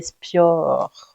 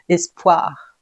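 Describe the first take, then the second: First: The i sound comes before the o sound. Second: The o sound comes before the i sound. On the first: The speaker calls it wrong. "pas le i avant le o, sinon ça ferait espior" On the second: The speaker calls it right. "le i après le o"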